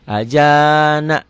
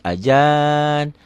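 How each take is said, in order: First: The word ends with a final vowel sound. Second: The word ends on a bare consonant. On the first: The reading continues into the next word. The speaker calls it wrong. "nggak boleh ajana" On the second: The reading stops at this word. The speaker calls it right. "harus ajan"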